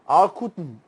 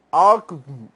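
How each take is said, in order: First: Alkutn with the U barely sounded; teacher modelling the Arabic alkutn. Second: Alkutn said slowly, U nearly dropped; teacher repeats the Arabic word slowly. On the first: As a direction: say alkutn as in Arabic, U almost silent. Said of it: "Você quase não pronuncia esse U". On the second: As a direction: repeat alkutn carefully, swallowing the U. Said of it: "De novo". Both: Shown as a demonstration.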